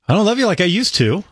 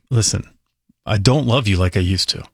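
First: It is said in a warm, good tone. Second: It is said in a cold, bad tone.

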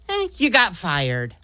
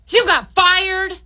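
First: It is said in a supportive tone. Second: It is said in a mad tone.

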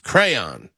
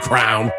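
First: It is said the standard, careful way. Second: It is said the Delco way, like crown.

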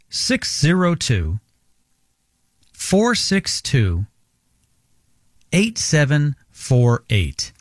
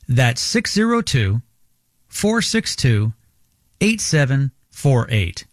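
First: The number is read more slowly. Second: The number is read at normal pace.

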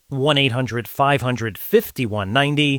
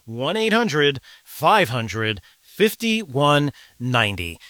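First: It is said at a normal pace. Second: It is said slowly.

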